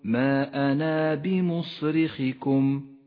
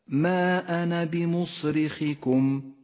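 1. الألف الأخيرة في ana طويلة. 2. الألف الأخيرة في ana قصيرة. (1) "وإياك أن تقول" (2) "تسقط في حالة الوصل ... أي هكذا"

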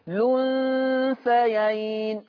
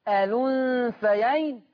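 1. الكلمة تبدأ مباشرة بصوت 'l'. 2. الكلمة تبدأ بحركة قبل اللام. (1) "أحذف همزة الوصل وأبدأ باللام مباشرة" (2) "إثبات همزة الوصل"

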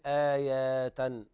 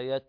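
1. الحركة بعد الياء ممدودة. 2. الحركة بعد الياء تبقى قصيرة. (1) "لا تقول آية" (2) "ما في مد بعد الياء"

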